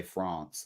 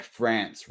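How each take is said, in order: First: France with a long broad a, like "frahns"; English France. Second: France with a flat a, like "frans"; American France. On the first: Explaining to cohosts, saying France the English way, broad ah. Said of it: "Whereas I, like, say France". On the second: Explaining to cohosts, saying France the flat American way. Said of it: "we probably say". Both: Shown as a demonstration.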